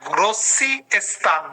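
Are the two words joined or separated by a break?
separated. The two words are separated by a break. The speaker calls it wrong. "এভাবে বলা যাবে না"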